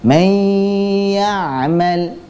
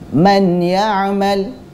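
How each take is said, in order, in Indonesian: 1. Bunyi n melebur ke dalam y dengan pemanjangan sengau. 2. Bunyi n diucapkan dengan jelas sebelum y. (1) "Bacaan yang benar seperti ini" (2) "ada orang yang membaca seperti ini"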